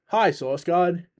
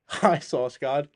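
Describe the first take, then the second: First: Drawn-out greeting. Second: Slow greeting, rising end. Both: Real, not acted. Greeting a viewer who joined.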